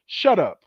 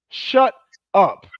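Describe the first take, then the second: First: Said in the usual way. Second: Louder shut up. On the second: Acted. Telling the women he mocks to hush, loud and sharp. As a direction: bark the second take with more force.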